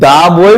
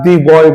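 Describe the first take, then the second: First: 'The' is said with a short 'thuh' vowel. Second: 'The' is said with a long 'thee' vowel. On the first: The speaker calls it right. "দা বই বলবো" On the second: The speaker calls it wrong. "দি বয় বলবো"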